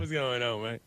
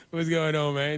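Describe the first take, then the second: First: Imitating a Louisiana drawl. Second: Said in the usual way. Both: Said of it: "There's a little territorial in that".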